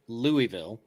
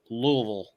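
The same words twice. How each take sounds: First: The name is said clearly, syllable by syllable. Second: The name is mumbled, as if through rocks. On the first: This is how northerners say it. "in the north, we say it Louisville, like the Louisville Slugger" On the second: This is how locals in Kentucky say it. "say it with a, a entire handful of rocks in your mouth"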